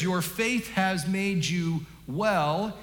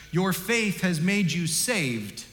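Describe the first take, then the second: First: Each word of "Your faith has made you well" drawn out slowly; slow emphatic quote. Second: Each word of "Your faith has made you saved" drawn out slowly; slow emphatic quote. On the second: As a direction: swap in "saved" and let it land. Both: Shown as a demonstration. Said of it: "try this on for size".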